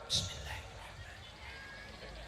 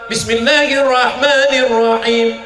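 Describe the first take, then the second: First: It is whispered quietly. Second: It is said loudly.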